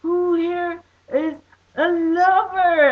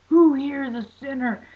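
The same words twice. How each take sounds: First: High, loud, slow joyful cry; answering the preacher, high and ecstatic. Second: High, loud mock preacher challenge; mock preacher calling out sinners; preacher's challenge. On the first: Retold or imitated. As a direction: sing it out with full heart. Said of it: "And I totally meant it". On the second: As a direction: fire it at the crowd like a street preacher. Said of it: "he was like".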